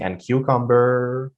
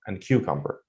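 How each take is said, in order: First: Cucumber said slowly with a rising unfinished tune; wrong way, cucumber rising. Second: Cucumber said low and softer with a clear falling tune; right way, cucumber falling. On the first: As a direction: keep cucumber up as if more is coming. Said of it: "So I'm not saying". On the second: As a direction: bring cucumber down to end the list. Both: Shown as a demonstration.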